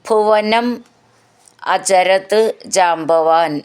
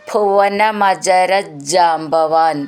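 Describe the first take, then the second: First: The words are said separately. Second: The words are blended into one.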